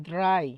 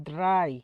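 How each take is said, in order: Both takes have the same delivery.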